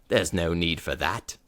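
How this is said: It is said in a low British accent. The speaker calls it right.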